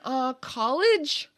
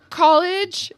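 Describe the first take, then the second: First: Slow, hesitant "college?" rising like a guess; "Uh, college?" drawn out as if unsure of the answer. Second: "College." shot out high and loud; blurted answer. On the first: Answering the border agent's question, hesitant and unsure. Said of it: "And this would be my answer. I'd look away". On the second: Answering the border agent's question, a nervous loud blurt. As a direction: blurt "College." too quickly and too loudly. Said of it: "And this would be my answer". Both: Retold or imitated.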